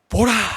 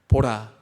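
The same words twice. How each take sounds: First: It is said as a strong exclamation. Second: It is said flatly, without feeling.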